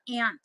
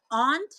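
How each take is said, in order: First: "aunt" with the short a of "cat"; ANT pronunciation. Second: "aunt" with a broad open ah; AHNT pronunciation. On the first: Offering viewers a choice, "aunt" pronounced ant. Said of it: "I'm like the critter". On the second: Offering viewers a choice, "aunt" pronounced ahnt. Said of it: "are you an aunt or aunt". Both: Shown as a demonstration.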